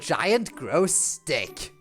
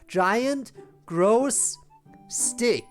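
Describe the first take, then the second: First: The words run together without pauses. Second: Each word is separated by a clear pause.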